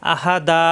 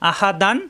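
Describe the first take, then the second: First: The word ends on a long a, no n. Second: The word ends with an n sound. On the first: The reciter stops after this word. "পড়তে হবে আহা দা অক্ষ করলে" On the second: The reciter continues into the next verse. "অক্ষ না করলে আহা দান"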